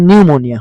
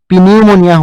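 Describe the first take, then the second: First: The word begins with an n sound, no p. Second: The word begins with a audible p sound. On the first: The speaker calls it right. "নিউমনিয়া হৈছে" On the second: The speaker calls it wrong. "ইয়াত পিনিউমনিয়া হোৱা নাই"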